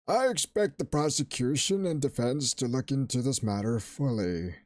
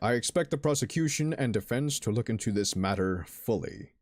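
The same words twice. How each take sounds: First: It is said in a wrinkly old man voice. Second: It is said in a normal voice.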